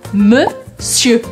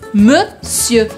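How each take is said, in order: Both takes have the same delivery.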